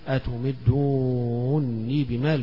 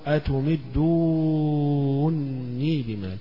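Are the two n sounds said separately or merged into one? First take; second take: merged; merged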